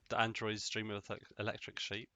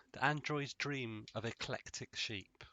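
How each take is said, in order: First: Said in the usual way. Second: Slower line, pointing up "eclectic"; stress on eclectic. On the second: Shown as a demonstration. Correcting the electric sheep title, stress on "eclectic". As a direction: draw out the sentence to set off "eclectic". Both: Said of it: "It's the eclectic part".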